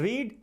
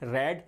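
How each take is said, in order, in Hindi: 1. स्वर लंबा है, 'reed' की तरह। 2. स्वर छोटा है, 'red' की तरह।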